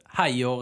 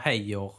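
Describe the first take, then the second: First: The first syllable rhymes with 'eye'. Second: The first syllable rhymes with 'ay'. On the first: "Det är ungefär som om man säger haj" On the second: "eller hej"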